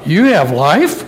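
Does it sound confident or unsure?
unsure. It is said unsurely, like a doubtful question.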